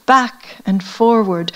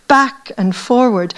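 Both takes have the same delivery.

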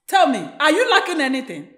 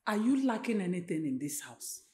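First: Insistent question at normal volume; firm motherly demand; pressing question. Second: Low, soft probing question; hushed motherly query; quiet questioning. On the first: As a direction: press her for an answer. Mother presses daughter for an answer. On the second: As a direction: ask her softly, pitched down. Mother begins questioning her upset daughter. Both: Acted.

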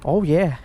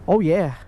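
No difference in how they are said.

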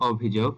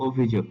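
First: "অভিযোগ" with open অ first; ভুল উচ্চারণ. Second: "অভিযোগ" with closed ও first; সঠিক উচ্চারণ. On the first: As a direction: begin "অভিযোগ" on aw, not o. ("অভিযোগ"-এর শুরুতে খোলা অ) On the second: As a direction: begin "অভিযোগ" on a rounded o. ("অভিযোগ"-এর শুরুতে ও ধ্বনি) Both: Shown as a demonstration. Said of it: "এর সঠিক উচ্চারণটি হবে".

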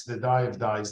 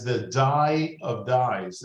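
First: Said in the usual way. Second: "dye of dyes" drawn out slowly, each word weighted; quoting the poet with slow relish; slow emphatic quote. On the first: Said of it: "the biblical Song of Songs". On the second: Retold or imitated. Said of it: "he talked about the purple pigment".

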